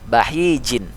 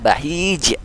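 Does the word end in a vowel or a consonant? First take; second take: vowel; consonant. First: The word ends with a vowel and final n. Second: The word stops sharply on the final consonant. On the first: "dia akhir dan harokatnya tidak sukun" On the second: "Maka jadi dibaca bahij"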